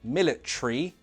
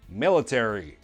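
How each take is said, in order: First: Said with a British accent, ending squeezed short. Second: Said with an American accent, ending fully voiced. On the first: "like we would say military" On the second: "American English"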